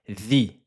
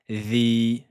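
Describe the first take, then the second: First: The vowel is held for one count. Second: The vowel is held for two counts. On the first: "un temps on a dit" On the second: "deux temps"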